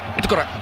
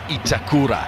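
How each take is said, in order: First: The name is said very quickly. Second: The name is said at a slow, even pace. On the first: This is how the player himself says it. "The way he says, he goes" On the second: This is how the name looks when read. "you would say it's Itakura. That's how it looks like"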